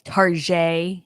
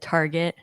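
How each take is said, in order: First: The word is said in a fancy French style. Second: The word is said in a plain English way.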